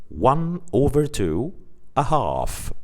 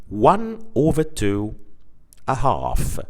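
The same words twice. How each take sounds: No difference in how they are said.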